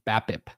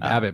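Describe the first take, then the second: First: The word is said slowly with crisp consonants. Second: The word is said quickly and loosely. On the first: "You really enunciated" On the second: "You just say it faster"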